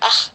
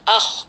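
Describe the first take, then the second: First: The final sound is light and thin. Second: The final sound is heavy and thickened. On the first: The speaker calls it wrong. "tidak cukup dibaca ah" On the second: The speaker calls it right. "kita tebalkan"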